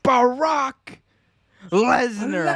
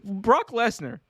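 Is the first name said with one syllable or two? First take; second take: two; one. First: The first name is said with two syllables. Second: The first name is said with one syllable. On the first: It sounds like the name of a president. The speaker calls it wrong. "Blame Paul Heyman for saying it that way. He's like Barack Lesnar" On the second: It is the wrestler's ordinary name. The speaker calls it right. "That's not Barack Obama. Like that's a Brock Lesnar"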